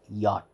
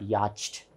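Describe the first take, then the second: First: No 'ch' sound is heard in the word. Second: A 'ch' sound is heard in the word. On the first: The speaker calls it right. "It is yacht" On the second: The speaker calls it wrong. "C H is not yacht. It is not yacht"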